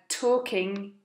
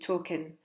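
First: The word is said in its full form. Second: The word is said in a reduced form. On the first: "talking gets reduced to" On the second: "gets reduced to talking"

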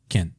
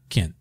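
No difference in how they are said.

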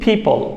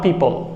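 First: The p sound is native English. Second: The p sound is Bengali-style. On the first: The speaker calls it right. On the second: The speaker calls it wrong.

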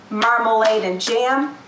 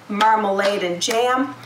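No difference in how they are said.

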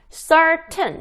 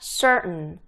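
First: The t is clearly pronounced before a full vowel. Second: The t is swallowed into a short n sound. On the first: The speaker calls it wrong. "certain 이게 아니라" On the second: The speaker calls it right. "약간 은 발음이 나요"

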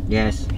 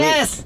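First: It is said quietly. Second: It is shouted loudly.

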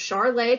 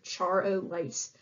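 First: It is shorter and ends without an s sound. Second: It has three syllables ending in an s sound. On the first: The speaker calls it right. "But it's pronounced Charlet because it's French" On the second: The speaker calls it wrong. "you might think it's pronounced like Char-o-lace"

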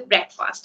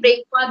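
First: The first syllable is a short 'brek' sound. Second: The first syllable sounds like the word 'break'. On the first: The speaker calls it right. "that should be breakfast" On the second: The speaker calls it wrong. "That should not be breakfast"

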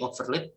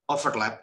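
First: The last syllable has the vowel of 'lip'. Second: The last syllable has the vowel of 'lap'. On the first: The speaker calls it wrong. "it is not correct to say overlip" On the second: The speaker calls it right. "The correct one is to overlap"

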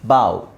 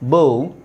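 First: The vowel sounds like 'ow'. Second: The vowel sounds like 'oh'. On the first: It means bending the head. "ಬ ಆವ್" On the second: It means an arrow. "ಬ ಓ ಬೋವ್"

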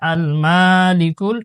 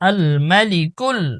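First: The vowel after 'm' is drawn out long. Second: The vowel after 'm' is kept short. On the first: The speaker calls it wrong. "অধিকাংশ মানুষ এখানে আল মালিকুল টান দিয়ে পড়ে" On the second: The speaker calls it right. "আল মাতে আমরা টান দিব না"

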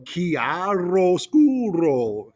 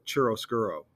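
First: The word is overpronounced with exaggerated mouth movements. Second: The word is said casually with a different pronunciation. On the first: "overpronounce ... really move our mouths in a very awkward way" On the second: "my professor in that class called it chiaroscuro"

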